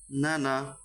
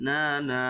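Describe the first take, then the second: First: নানা said short, without dragging either vowel; short quick vowels. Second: না, না with each vowel stretched long; slow, held a in each না; drawn-out vowels. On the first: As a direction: keep both syllables of নানা brief. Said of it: "আমি উচ্চারণগুলো তাড়াতাড়ি করেছি". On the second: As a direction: drag out both syllables of না, না. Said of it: "এরকমভাবে যদি আমি পড়তাম". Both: Shown as a demonstration.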